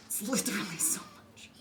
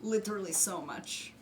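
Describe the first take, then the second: First: Breathy whispered repeat; whispering. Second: Said in the usual way. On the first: Acted. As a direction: whisper it under your breath.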